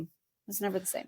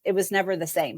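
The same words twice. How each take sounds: First: Repeated much softer, almost to herself; hushed repeat, sinking into memory; quiet echo. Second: Said in the usual way. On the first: Real, not acted. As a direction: let the line fall away softly. Repeated softly, trailing away.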